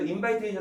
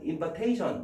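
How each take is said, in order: First: The middle part sounds like the word invite. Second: The middle part does not sound like invite. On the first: The speaker calls it wrong. "invite의 명사형이라고 또 invitation 하면 안 돼요" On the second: The speaker calls it right. "invitation이야"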